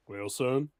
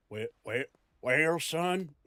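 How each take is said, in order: First: Lightly Southern drawl on well, son; Southern grandpa. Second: Repeated Southern well, well with falling well; Southern grandpa. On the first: Grandpa lecturing son in Southern accent, mild. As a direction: settle into a Southern old man's well, son. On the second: Grandpa scolding son in Southern accent, lightly done. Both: Shown as a demonstration. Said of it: "I could go southern".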